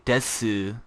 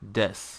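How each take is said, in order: First: The word ends with a sounded u vowel. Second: The word ends without a final vowel. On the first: The speaker calls it wrong. "that's putting big emphasis on the des" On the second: The speaker calls it right. "the actual pronunciation is des"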